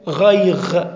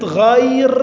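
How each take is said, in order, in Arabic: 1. تنتهي الكلمة بصوت الغين. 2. تنتهي الكلمة بصوت الراء.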